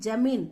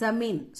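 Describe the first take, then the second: First: The word starts with a 'j' sound. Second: The word starts with a 'z' sound. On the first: The speaker calls it wrong. "ஜமீன் அப்படின்னு சொல்லாம" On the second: The speaker calls it right. "ஜமீன் சொல்லணும்"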